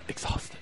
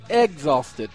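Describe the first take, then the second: First: The word begins with an ex sound. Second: The word begins with an egg sound. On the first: "not exhausted" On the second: "Egg, like in eggs"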